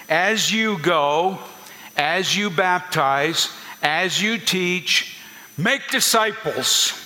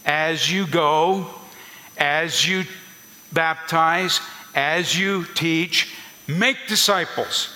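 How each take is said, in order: First: Slow, leaning on "you" in each "as you go, as you baptize, as you teach", then "make" lifted higher and falling; paced phrases, each "you" drawn out, landing hard on "make disciples"; stress on you. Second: Slow again, "you" lingered on in "as you go", "as you baptize", "as you teach", and "make" raised and falling; measured phrases pressing each "you", then a lifted "make disciples"; stress on you. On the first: Pastor shows his congregation how to say the verse, slow and stressed. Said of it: "That's the way you would say the verse".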